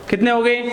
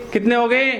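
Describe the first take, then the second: No difference in how they are said.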